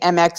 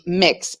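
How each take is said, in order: First: It is spelled out as two letters. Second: It is said as one syllable, mix. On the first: The speaker calls it wrong. "Instead of saying M X" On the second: The speaker calls it right. "it'd be mix"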